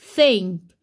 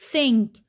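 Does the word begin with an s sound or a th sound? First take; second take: th sound; th sound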